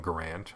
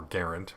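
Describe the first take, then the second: First: Said in the usual way. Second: Garand stressed on the first syllable; proper pronunciation. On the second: Shown as a demonstration. Host corrects himself on the M one name, Garand pronounced like errand. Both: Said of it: "more properly pronounced".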